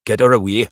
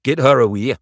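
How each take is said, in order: First: Loud, rough command; a rough, loud woman's command. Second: Loud, rough order; rough command, louder; rough woman's voice. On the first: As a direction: bark the order like a hardened midwife. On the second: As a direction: call it out roughly. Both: A narrator's reading. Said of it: "The rough voice of the woman".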